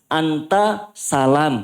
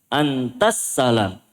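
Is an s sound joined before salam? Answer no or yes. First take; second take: no; yes. First: The t ends with a vowel before a single s. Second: The t runs straight into a doubled s. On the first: The speaker calls it wrong. "Bukan anta salam" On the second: The speaker calls it right. "Ta langsung masuk ke sin"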